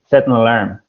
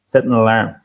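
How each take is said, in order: First: A clear n sound is heard before 'alarm'. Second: The same.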